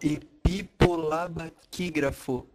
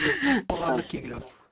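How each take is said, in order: First: The word is said slowly. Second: The word is said at normal speed.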